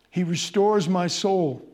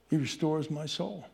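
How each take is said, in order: First: Louder, proclaimed verse; ringing proclamation. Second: Softer, reverent murmur of the verse; hushed reverent verse. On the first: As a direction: declare it to the whole room. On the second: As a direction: bring it down to a tender hush. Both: Acted.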